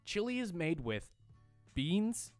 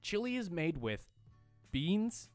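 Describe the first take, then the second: First: There is a pause between with and beans. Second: There is a pause between with and beans.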